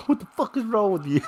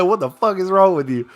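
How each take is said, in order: First: Quick, soft quote broken by laughter; laughing through the quote. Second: Said in the usual way. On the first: Retold or imitated. Fan repeating a coach's outburst to himself, laughing. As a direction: giggle while repeating the coach's line. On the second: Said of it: "He one hundred percent said".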